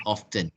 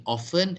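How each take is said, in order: First: "often" said as OFF-ten, T audible. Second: "often" said as OFF-en, no T; often with silent T. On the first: Teacher confirming both forms are used, "often" with T sounded. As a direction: pronounce "often" with its t. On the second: Teacher confirming both forms are used, "often" with silent T. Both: Shown as a demonstration. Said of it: "use the pronunciation often and often".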